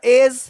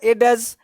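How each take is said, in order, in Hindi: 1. अंत से पहले कोई d ध्वनि नहीं बोली जाती है। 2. अंत से पहले एक साफ़ d ध्वनि बोली जाती है।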